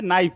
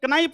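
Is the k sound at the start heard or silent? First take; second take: silent; heard. First: The k at the start is silent. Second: The k at the start is pronounced. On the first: The speaker calls it right. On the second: The speaker calls it wrong.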